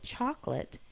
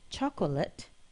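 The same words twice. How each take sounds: First: The middle vowel is dropped, giving two syllables. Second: The middle vowel is kept, giving three syllables. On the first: "You've probably heard people say chocolate" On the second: "instead of chocolate"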